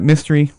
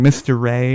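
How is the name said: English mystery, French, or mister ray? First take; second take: English mystery; Mister Ray. First: It is said like the English word mystery. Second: It is said as two words, mister ray. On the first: Customers read it as an English word. "but we got Mystery" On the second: Customers tried to say the French name. "they made a valiant effort with Mister Ray"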